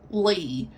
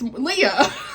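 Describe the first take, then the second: First: The name is said as one syllable. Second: The name is said as two syllables. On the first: The speaker calls it wrong. "she was pronouncing it as Lee" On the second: The speaker calls it right. "it's Leah. I really like Leah"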